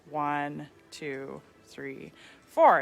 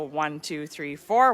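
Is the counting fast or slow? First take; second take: slow; fast. First: The counting is slow. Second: The counting is fast.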